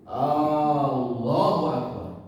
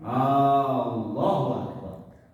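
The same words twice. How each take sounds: First: The opening vowel is stretched out long. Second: The same.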